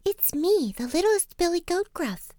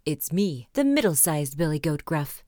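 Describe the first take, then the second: First: Tiny high-pitched billy goat; little bit of voice. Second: Lower, medium-sized billy goat; middle-sized goat voice. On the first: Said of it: "in his little bit of voice". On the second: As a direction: answer as a middling goat, neither tiny nor huge. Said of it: "in his middle-sized voice". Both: A narrator's reading.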